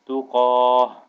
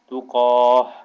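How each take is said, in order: First: The word ends with a soft h sound. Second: The same.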